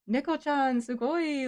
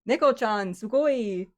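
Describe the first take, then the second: First: The voice is pitched noticeably higher than normal. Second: The voice is at its ordinary speaking pitch. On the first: The speaker calls it wrong. "it just goes up for some reason" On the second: The speaker calls it right. "like speaking my normal speaking voice"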